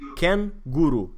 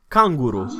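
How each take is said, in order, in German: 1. Der erste Vokal ist ein 'e'-ähnlicher Laut. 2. Der erste Vokal ist ein offenes 'a'. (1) "uneori se scrie cu a umlaut și atunci e kangaroo" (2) "Cangur se spune canguru"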